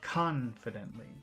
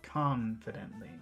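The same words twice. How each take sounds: No difference in how they are said.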